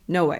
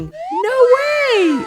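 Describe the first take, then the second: First: It sounds like a firm refusal. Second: It sounds pleasantly surprised. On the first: The speaker refuses. "No, I refuse" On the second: The news is surprising. "Oh my God, I'm surprised to hear this news"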